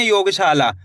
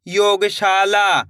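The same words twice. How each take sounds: First: Said in the usual way. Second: "योगशाला" stretched very slowly, every syllable drawn out; slow blended word. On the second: Shown as a demonstration. Teacher blending the word for pupils, drawn out very slowly. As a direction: pull the word apart as you blend it. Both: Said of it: "कैसे पढ़ेंगे?".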